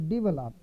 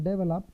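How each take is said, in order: First: It is said the standard way, not like 'devil up'. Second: It is said the Indian way, like 'devil up'. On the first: The speaker calls it right. "So I changed it from develop to develop" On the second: The speaker calls it wrong. "Because I say devil up"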